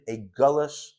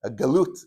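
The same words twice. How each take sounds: First: "galush" said with a final sh sound; mispronounced galush. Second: "galut" said with a clear final t; corrected to galut. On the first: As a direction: slip into "galush" ending in sh, not t. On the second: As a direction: fix the word to "galut" with a crisp t. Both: Shown as a demonstration. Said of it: "galush, I just made up a word".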